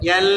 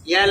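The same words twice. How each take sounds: First: The L sound is held a little longer. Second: The L sound is short and cut off. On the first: The speaker calls it right. "একটু লম্বা হবে" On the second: The speaker calls it wrong. "হয় নাই"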